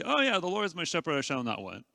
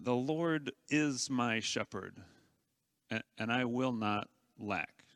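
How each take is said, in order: First: Quick, careless rattle-off; breezy, rushed, heart not in it; offhand recital. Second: Quiet, earnest declaration of trust; heartfelt. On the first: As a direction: toss it off without meaning it. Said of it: "We just sort of remotely say". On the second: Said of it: "engage your heart and say". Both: Shown as a demonstration.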